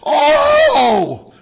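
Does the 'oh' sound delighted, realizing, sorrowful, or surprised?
delighted. It is said in a delighted, thrilled tone. The speaker is thrilled by a gift.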